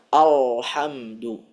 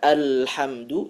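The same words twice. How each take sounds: First: The l sound is heavy and thick. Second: The l sound is light and thin. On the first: The speaker calls it wrong. "dibaca alhamdu" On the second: The speaker calls it right. "yang seharusnya dibaca alhamdu"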